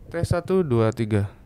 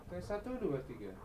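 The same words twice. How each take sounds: First: Said in the usual way. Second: Much softer and higher, distant count; far from the mic. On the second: Shown as a demonstration. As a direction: count from across the room. Distant take of mic test.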